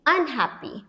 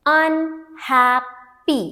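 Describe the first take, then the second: First: Said in the usual way. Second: Unhappy very slowly as "un", "hap", "py"; long pauses between the parts of Unhappy; syllable by syllable. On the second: Shown as a demonstration. Teacher splitting prefix from word, Unhappy in three slow, separate parts. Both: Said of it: "now let's split it".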